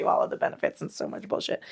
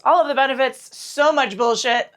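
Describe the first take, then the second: First: Quick unvoiced whisper of the new slogan; slogan whispered fast as a cheeky aside. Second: Said in the usual way. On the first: Shown as a demonstration. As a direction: hush it like a naughty joke. Mock revised slogan, whispered.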